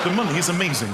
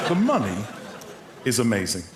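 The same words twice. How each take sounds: First: One continuous phrase; flowing read, no pauses; reading a text back. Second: Measured, piece by piece, as if typing; deliberate, broken-up message dictation; dictating a text. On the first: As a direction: read it straight through. Reads the finished text back in full. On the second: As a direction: pause after money, then drop. Dictating text while typing it, with pauses. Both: Acted.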